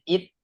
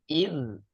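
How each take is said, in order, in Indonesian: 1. Konsonan akhirnya lemah, mirip bunyi t. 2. Konsonan akhirnya kuat, dh yang bergetar. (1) "kalau hanya it, maka sifatnya kurang" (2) "zalnya lebih kuat. Id, id"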